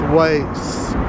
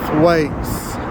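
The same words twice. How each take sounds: The two takes are said the same way.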